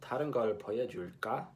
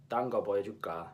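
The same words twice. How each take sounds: First: Fast 다른 걸 보여줄까 with the ㄹ clearly sounded; Seoul way, full 다른; crisp Seoul Korean take; Seoul pronunciation. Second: 딴 거 보여줄까, ㄹ dropped and clipped to 딴; lazy-tongue Busan take; Busan pronunciation. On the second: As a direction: Busan dialect contrast take. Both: Shown as a demonstration. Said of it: "note the difference between".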